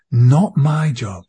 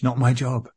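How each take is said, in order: First: "Not" hit hard, slow and louder, falling at the end; slow emphatic repeat. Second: Said in the usual way. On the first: Real, not acted. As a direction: drag out "Not my job", leaning on "Not" with finality.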